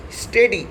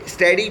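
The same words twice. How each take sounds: First: "स्टेडी" with a long "ay" in the first syllable; pronunciation demo. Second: "स्टडी" with a short, open first vowel; alternative pronunciation. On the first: Teacher giving students the word, "स्टेडी" said as STAY-dee. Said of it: "अब कई लोग इसे स्टडी भी बोल देते हैं". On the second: Teacher quoting how many people say it, "स्टडी" with short vowel. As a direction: say "स्टडी" as STAD-ee, not STAY-dee. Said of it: "इसे स्टडी भी बोल देते हैं". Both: Shown as a demonstration.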